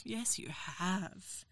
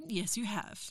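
First: Drawn-out, much softer repeat; very slow, softer echo of the line. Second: Said in the usual way. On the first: Acted. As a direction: stretch it out slowly and quietly. Repeated teasing reply, slowed.

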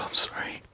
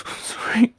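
First: Soft whispered apology; hushed sorry. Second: Higher, voice cracking with fear; strained scared sorry; high frightened apology. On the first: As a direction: whisper it, shrinking away. Apologising in fear. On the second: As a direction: blurt it out in panic. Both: Acted.

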